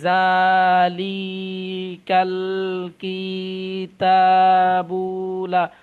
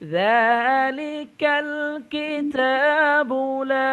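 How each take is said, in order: First: The short vowels are slow and drawn out. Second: The short vowels are short and quick. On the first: The speaker calls it wrong. "এভাবে পড়ে অনেকে দেখি যে" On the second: The speaker calls it right. "অথচ আয়াতটা এ- এরকম হবে"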